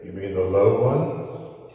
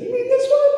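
First: Deep put-on voice, rising to a question; low voice. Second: Loud, squeaky put-on falsetto; high voice. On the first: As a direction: ask it way down low. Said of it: "that other voice that you did". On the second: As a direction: ask it in a tiny, very high voice. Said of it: "that high voice you did". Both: Shown as a demonstration.

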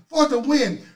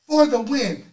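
The two takes are said the same way.

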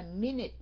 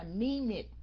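First: "minute" as min-nit, N closing the first syllable; doubled N. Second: "minute" as mee-nit, first syllable left open; wrong single N. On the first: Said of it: "mình đọc là minute". ("minute" đọc min-nít, âm N hai lần) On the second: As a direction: say "minute" with the N only starting syllable two. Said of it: "mình không có đọc là minute". ("minute" đọc sai, mi-nít, một âm N) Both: Shown as a demonstration.

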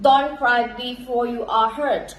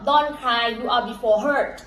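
First: Don't cry before you are hurt in the right word order, very slow; careful slow correction; corrected take. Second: Don't cry you are before hurt, words jumbled out of order; slow slip of the tongue; garbled take. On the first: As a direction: fix the slip and read it right, word by word. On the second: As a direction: misread the proverb, words swapped. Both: Shown as a demonstration. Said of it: "พี่ออกเสียงผิด".

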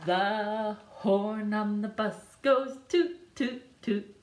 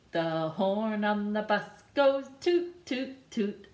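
The two takes are said the same way.

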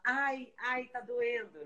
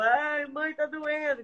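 First: Higher and softer, a fake little ai ai; mock whimper of pain. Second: Higher child voice, mock crying; imitating a crying child. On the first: Host mocking a stubbed-toe complaint, higher and softer. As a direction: whine it like a hurt kid pretending. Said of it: "dá pra você falar". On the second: Mother retelling her son crying from a cut, higher mock sob. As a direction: squeak it like a hurt little boy. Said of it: "E ele chorava".

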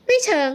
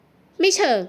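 First: Raised voice. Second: Said in the usual way. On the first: A narrator's reading. Guest echoing her rescuer's evasive answer, voice raised. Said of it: "ตามิสาขึ้นเสียงสูง".

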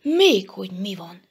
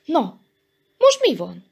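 First: Mildly indignant echo of a question; offended retort, stressed on "Még". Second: Higher, louder curious question; impatiently inquisitive. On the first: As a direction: throw the question back, affronted. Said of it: "szikrázott fel Elemér tekintete". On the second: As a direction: ask eagerly what's going on. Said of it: "kérdezte kíváncsian Köles". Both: A narrator's reading.

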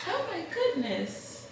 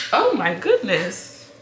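First: High soothing coo. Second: Startled exclamation. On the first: Soothing fussing baby. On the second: Baby startles/cries. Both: Real, not acted.

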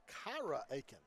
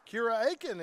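First: "Kyra Aiken" said with the proper stress, as a correction; corrected name stress. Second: "Kira Aiken" with the stress misplaced on the first name; wrong name stress. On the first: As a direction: correct yourself calmly on "Kyra". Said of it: "Correction, that was Kyra Aiken". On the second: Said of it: "I put the emphasis on the wrong syllable". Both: Real, not acted.

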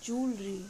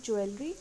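First: Jewelry squeezed to two syllables, "jool-ree"; correct pronunciation. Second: First jewelry in three syllables, "ju-el-ree"; wrong pronunciation. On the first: Teacher giving the correct word, jewelry as "jool-ree". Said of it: "इसका सही pronunciation होता है". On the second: Teacher rejecting a common mistake, jewelry as "ju-el-ree". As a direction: say jewelry with a separate "el". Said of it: "not jewelry but jewelry". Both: Shown as a demonstration.

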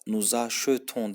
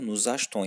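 First: "nous achetons" with the middle e fully sounded, a-she-ton; wrong pronunciation. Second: "Nous achetons" with the middle e dropped, ash-ton; correct pronunciation. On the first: Teacher showing students the wrong way, e sounded. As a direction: say "achetons" with every vowel pronounced. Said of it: "burada nous achetons denmiyor". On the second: Teacher showing students the right way, e dropped. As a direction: swallow the e in "achetons". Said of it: "yani e çok okunmuyor". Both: Shown as a demonstration.

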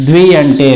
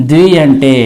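No difference in how they are said.

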